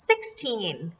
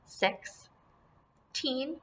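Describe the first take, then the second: First: Said in the usual way. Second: Put-on "Sixteen" softly as SIX, long pause, TEEN; syllables apart. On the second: Shown as a demonstration. Teacher shows pupils the pieces, "Sixteen" split in two. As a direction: say "Sixteen" with a wide gap in the middle. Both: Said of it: "put them together".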